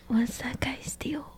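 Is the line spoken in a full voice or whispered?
whispered. It is spoken in a whisper. "Sorry, try again"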